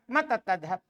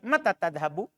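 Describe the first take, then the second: First: The last word ends on a bare consonant. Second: The last word ends with a short vowel. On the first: "Itu sukun kan antum bercakap" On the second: "Sebenarnya kalau diharokati"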